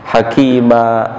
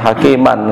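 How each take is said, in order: First: The word ends without any n sound. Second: The word ends with a clear n sound. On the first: The speaker calls it right. "Hakima harus dimatikan huruf belakangnya" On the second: The speaker calls it wrong. "enggak dibaca apa namanya hakiman, enggak boleh"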